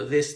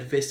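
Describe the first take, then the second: First: It begins with a 'th' sound. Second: It begins with a 'v' sound. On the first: "people with this accent can pronounce the th sound" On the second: "people with the Cockney accent can't pronounce the th. It comes out as an F or a V"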